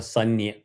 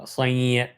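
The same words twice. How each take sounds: First: A full n sound comes before the ya. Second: A nasalized vowel comes before the ya. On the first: The speaker calls it wrong. "or Sanya" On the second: The speaker calls it right. "It will be chanted as Sanya, Anunasika"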